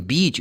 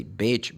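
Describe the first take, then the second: First: "beach" with a long ee. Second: "bitch" with a short, lax ih vowel. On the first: Teacher contrasts beach with a risky mistake, long E. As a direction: hold the ee in "beach". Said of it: "if you make this sound long, short". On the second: Teacher warns learners of the mispronunciation, short vowel. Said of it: "short, instead of saying beach". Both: Shown as a demonstration.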